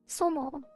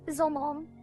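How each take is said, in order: First: The word begins with a sharp, hissing S. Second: The word begins with a soft, buzzing S. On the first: The speaker calls it wrong. "It's an S. It's a sharp S" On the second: The speaker calls it right. "It is a soft S"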